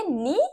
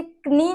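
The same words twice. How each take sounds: First: नी starting straight on n; silent k. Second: क्नी with the k sounded before n; wrong pronunciation. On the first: Teacher giving pupils the correct word, नी with silent k. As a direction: say नी with no k sound. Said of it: "क्या बोलेंगे?". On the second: Teacher showing pupils what not to say, क्नी with an audible k. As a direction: voice the silent k in क्नी. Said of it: "आप इसे क्नी नहीं बोलेंगे". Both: Shown as a demonstration.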